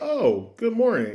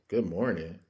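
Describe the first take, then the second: First: It is said in a cheerful, friendly tone. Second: It is said in a joyless, grumpy tone.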